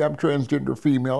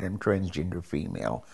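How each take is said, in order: First: Higher-pitched, urgent blurted confession. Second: Lower-key, softer confession; quiet admission. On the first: Patient coming out to the doctor, blurted out. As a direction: blurt it out before nerve fails. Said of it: "I blurted it out right then and there". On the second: Parent finally admitting it to family, quietly. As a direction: admit it softly, falling away at the end. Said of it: "I finally admitted it". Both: Retold or imitated.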